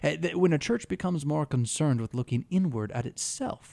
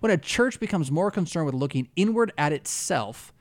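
First: It is read in a mocking, sneering tone. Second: It is read in a plain, neutral tone.

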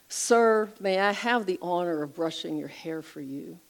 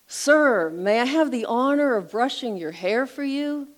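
First: It is said at a normal, soft volume. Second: It is said somewhat louder than normal.

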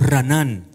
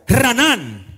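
First: It is said calmly, without special energy. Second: It is said with fervent, shouting energy.

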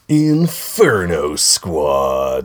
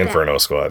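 First: The name is said with a disapproving, negative tone. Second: The name is said in a plain, neutral tone. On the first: The speaker dislikes the thing named. The speaker calls it wrong. "I really shouldn't say it like that because I'm like negatively painting" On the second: The speaker expresses no opinion of the thing named. The speaker calls it right. "I should just say"

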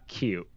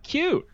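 First: It is said in a dry, mocking tone. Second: It is said in a sincere, warm tone. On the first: The reviewer does not really find it cute. "or sarcastic" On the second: The reviewer truly finds it cute. "whether it's earnest"

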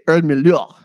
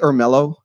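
First: The name is said the local South African way. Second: The name is said with a Texan American accent. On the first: "but they say Ermelo over there" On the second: "it's really Ermelo in, you know, Texas English"

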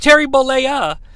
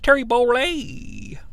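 First: The final vowel of the surname is pronounced. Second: The final vowel of the surname is dropped. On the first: The speaker calls it right. "Hogan chooses to pronounce the A" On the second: The speaker calls it wrong. "Mark Madden always says Terry Bollea"

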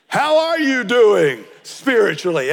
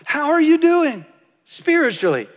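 First: It is asked in an accusing tone. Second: It is asked in a friendly, open tone.

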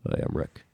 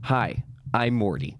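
First: It is said in a lower, deeper voice. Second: It is said in his normal voice.

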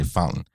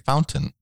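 First: The word is said in a relaxed, casual way. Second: The word is said in a careful, precise way. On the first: This is how it sounds in relaxed everyday talk. "if I was recording this podcast, I'd say fountain" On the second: This is how it sounds when trying to talk correctly. "If I was recording the National Parks podcast, I'd say fountain"

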